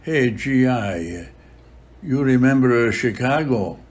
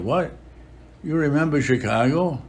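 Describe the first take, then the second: First: Slow, lightly put-on Italian accent; heavy Italian accent. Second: Higher, amazed disbelieving repeat; astonished. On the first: Padre Pio calls to the departing GI, mild Italian accent. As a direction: imitate Padre Pio's Italian-accented English, slowly. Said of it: "with a heavy Italian accent". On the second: Retold or imitated. The GI echoes Padre Pio's question, higher and astonished. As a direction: echo it back in startled disbelief. GI stunned by the priest's remark.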